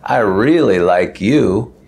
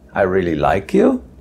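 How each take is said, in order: First: The voice sounds sarcastic and mocking. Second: The voice sounds unsure and questioning. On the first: The speaker does not like the person. "which is sort of a sarcastic way of saying, "I don't like you."" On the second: The speaker is not sure whether they like the person. "which is sort of a question"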